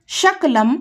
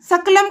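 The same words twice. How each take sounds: First: शकलम said with sh, shakalam, meaning a piece; mispronounced shakalam. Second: सकलम with a plain s, sakalam; correct sakalam. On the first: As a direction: open शकलम with sh: sha-ka-lam. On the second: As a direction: say सकलम as sa-ka-lam with a clean s. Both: Shown as a demonstration. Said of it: "ऐसा दोषपूर्णम उच्चारणम".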